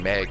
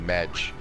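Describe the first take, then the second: First: It ends with a hard g sound. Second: It ends with a soft j sound. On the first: "instead of saying Meg in shorthand" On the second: "it'd be Medj"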